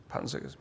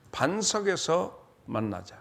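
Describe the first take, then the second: First: 반석에서 repeated much lower and softer; whispered-down 반석에서 with a fall; soft echo. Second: 반석에서 drawn out slowly and stressed, falling; slow emphatic 반석에서 만나자. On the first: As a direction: drop to a hushed echo of 반석에서. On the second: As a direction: lean slowly on 반석에서, then let it fall. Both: Shown as a demonstration.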